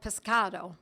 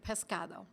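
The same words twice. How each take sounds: First: It is said with an Italian accent. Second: It is said with a Spanish accent. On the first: The speaker calls it wrong. "I actually I said that with an Italian accent" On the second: The speaker calls it right. "excuse me"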